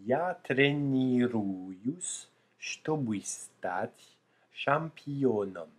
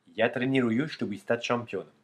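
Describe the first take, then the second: First: The sentence is said at a slow pace. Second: The sentence is said at a fast pace. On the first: "d'abord lentement" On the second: "Et puis d'accélérer progressivement"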